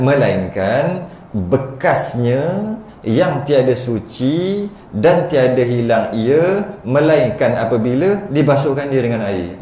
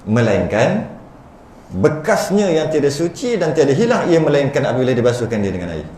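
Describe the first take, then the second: First: It is read in choppy separate pieces. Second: It is read through in one smooth run.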